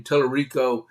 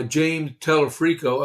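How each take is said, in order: First: Tellerico said as TEL-er-ee-ko, with an r and no f; corrected name. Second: Telefrico said as tel-eh-FREE-ko, with an f; mispronounced name. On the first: Host corrects himself to Tellerico, with an r and no f. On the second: Host stumbles on the candidate's name, saying Telefrico with an f. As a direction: Telefrico with an f sound in the middle. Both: Real, not acted. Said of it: "I mean, Tellerico".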